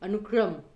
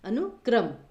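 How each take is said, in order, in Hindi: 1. बीच के अक्षर में 'ri' स्वर है। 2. बीच का अक्षर एक सामान्य 'kra' संयुक्त व्यंजन है।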